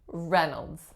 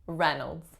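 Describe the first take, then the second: First: The first syllable has a short 'eh' vowel. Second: The first syllable has a short 'eh' vowel.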